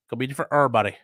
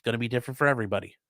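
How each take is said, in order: First: "everybody" slurred into "errbody", louder; slangy pronunciation. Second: Said in the usual way. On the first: Shown as a demonstration. Streamer repeats his advice for effect, slangy and emphatic.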